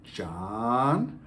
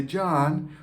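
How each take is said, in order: First: A warning call of the name John; stern name call. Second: John said higher and lighter; loving name call. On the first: Parent calling child's name John in a warning tone. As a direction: say John like he's in trouble. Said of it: "You can say your child's name". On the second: Parent saying child's name John, lovingly. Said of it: "one means you're in trouble, and the other means I love you". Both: Shown as a demonstration.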